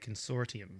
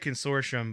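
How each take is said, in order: First: It is said the British way. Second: It is said the American way.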